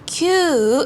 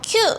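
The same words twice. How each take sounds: First: The vowel is drawn out long. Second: The vowel is cut short. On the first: The speaker calls it right. "장음으로 길게 뻗어서 읽어주셔야 됩니다" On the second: The speaker calls it wrong. "이게 아니라"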